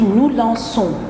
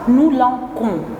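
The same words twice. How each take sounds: First: The c is pronounced as an s sound. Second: The c is pronounced as a k sound. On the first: The speaker calls it right. "je dis nous lançons" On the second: The speaker calls it wrong. "et non pas nous lançons"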